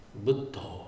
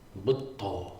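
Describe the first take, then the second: First: A held double d with aspiration. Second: The same.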